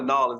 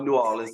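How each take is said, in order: First: The name is squeezed together, like 'Nolens'. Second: The name is said in full, 'New Orleans'. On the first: This is how tourists say it. The speaker calls it wrong. "that's what the uh the tourists say" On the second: This is how it is properly said. The speaker calls it right. "but it's you know New Orleans"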